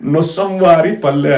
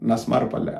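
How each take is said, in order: First: The name is said in its full form. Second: The name is said in a short, contracted form. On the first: This is the village's official name. "నొస్సంవారి పల్లె అని ఉంటుంది" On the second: This is how local people say the name. "నస్మార్ పల్లె అంటారు"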